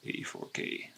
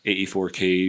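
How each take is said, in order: First: Breathy whisper of the number. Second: Said in the usual way. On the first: Acted. Trader whispering to himself while drawing the line. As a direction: whisper it to yourself as you mark the chart.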